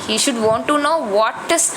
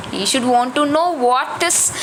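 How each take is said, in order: Both takes have the same delivery.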